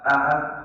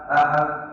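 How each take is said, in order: Both takes have the same delivery.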